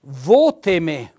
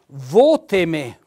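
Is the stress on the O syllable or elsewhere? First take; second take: on O; on O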